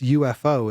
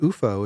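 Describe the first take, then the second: First: Each letter is said separately. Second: It is said as a single word. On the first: The speaker calls it right. "It's U dot F dot O" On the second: The speaker calls it wrong. "we insist it's not U F O"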